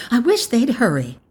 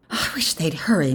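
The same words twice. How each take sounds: First: Higher-pitched repeat of the wish; more insistent. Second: Said in the usual way. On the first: A narrator's reading. Mother frets to her older son, higher and impatient. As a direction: press it with rising impatience.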